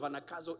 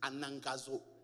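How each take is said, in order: First: The middle consonant is a plain k sound. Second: The middle consonant is ng followed by g. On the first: The speaker calls it wrong. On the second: The speaker calls it right.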